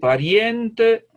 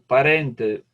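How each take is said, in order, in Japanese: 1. はっきり、母音を広げて言われています。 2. 軽く、母音は普通に言われています。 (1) "もうちょっとはっきり" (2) "軽くの喋り方"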